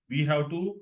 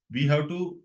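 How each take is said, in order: Both takes have the same delivery.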